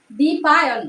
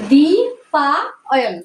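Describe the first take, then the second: First: Said in the usual way. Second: দ্বিপায়ন stretched out very slowly, syllable by syllable; slow drawn out. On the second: Shown as a demonstration. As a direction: draw out দ্বিপায়ন slowly so the child hears each part. (দ্বিপায়ন খুব ধীরে টেনে টেনে বলা) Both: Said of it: "দেখো".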